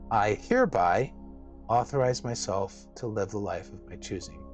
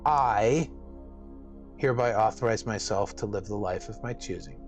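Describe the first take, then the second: First: The word "hereby" is stressed. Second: The word "I" is stressed.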